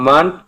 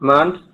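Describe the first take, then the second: The two takes are said the same way.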